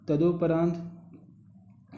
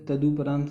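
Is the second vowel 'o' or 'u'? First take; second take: o; u. First: The second syllable has an 'o' vowel. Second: The second syllable has a 'u' vowel. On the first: The speaker calls it wrong. "गलत होता है" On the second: The speaker calls it right. "सही होता है"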